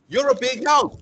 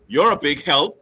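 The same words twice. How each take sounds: First: It is said in a warm, sincere tone. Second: It is said in a mocking, sarcastic tone. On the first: The speaker truly means the praise. "a genuine compliment" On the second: The speaker means the opposite of the praise. "cruel, sarcastic remark"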